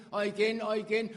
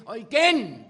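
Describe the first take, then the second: First: Loud repeated cry, climbing; building preaching cry. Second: Shouted climax, much higher and louder; full-voiced shout. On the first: Acted. Preacher driving the refrain, rising loud cry. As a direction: hammer it home each time louder. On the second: Preacher crowning the refrain, ecstatic shout. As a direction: let the last one explode.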